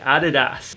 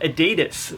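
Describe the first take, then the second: First: The name is pronounced a non-American way. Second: The name is pronounced the American way. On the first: This is how the speaker's own community says it. "but we say Adidas" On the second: This is how Americans say it. "if you're American, pronounce it Adidas"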